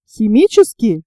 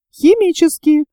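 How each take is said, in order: First: "Химические" as a questioning echo. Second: "Химические" as a confirming answer, pitched higher. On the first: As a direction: ask "Химические" back, checking the claim. Sailor questions the engineer's claim. («Химические» с вопросительной интонацией) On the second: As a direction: answer "Химические" firmly, settling the question. Engineer confirms with same word. («Химические» как утвердительный ответ) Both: A narrator's reading.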